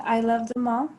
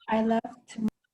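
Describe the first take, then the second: First: Said in the usual way. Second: "I loved them all" with the th of "them" dropped, run together as "lovt 'm all"; Yorkshire accent. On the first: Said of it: "instead of saying". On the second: Shown as a demonstration. Student demonstrating the Yorkshire accent for class, a Yorkshire accent. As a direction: clip "them" down to a bare "m". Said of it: "It should sound like".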